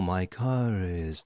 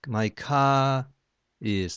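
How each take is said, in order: First: A weak R links car smoothly into is. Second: No R, so car and is break apart. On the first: The speaker calls it right. "イギリス英語でもMy car is とそういうふうなつながりになるはず" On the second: The speaker calls it wrong. "R がないって思ってやったら、"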